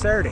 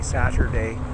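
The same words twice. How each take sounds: First: The T sound is dropped from the word. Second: The T sound is clearly pronounced. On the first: "There's no T in Saturday" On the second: "talk without our twang"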